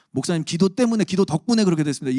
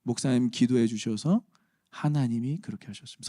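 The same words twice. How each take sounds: First: 때문에 pushed out high and loud; wrong wording stressed. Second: Gentle rise on 주셔서, settled 하나님이; right wording, calm. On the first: Pastor warns church of risky wording, loud emphatic stress. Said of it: "이거는 조금 위험한 거고요". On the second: Pastor models the right phrase for the congregation, calm and even. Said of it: "이 용어가 굉장히 중요하거든요". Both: Shown as a demonstration.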